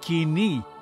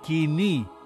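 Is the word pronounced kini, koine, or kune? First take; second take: kini; kini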